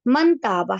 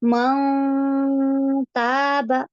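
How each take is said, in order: First: The n sound is pronounced clearly. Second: The n sound is hidden in the nose. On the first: "बोलने में हम कैसे बोलते हैं?" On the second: "नाक में बारीक कर देंगे।"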